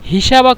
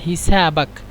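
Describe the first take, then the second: First: The middle consonant is a 'sh' sound. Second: The middle consonant is an 's' sound. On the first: The speaker calls it wrong. "অবশ্যই শিন ব্যবহার করবেন না মানে বলবেন না" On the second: The speaker calls it right. "বলবেন হিসাবাক সিন দিয়ে"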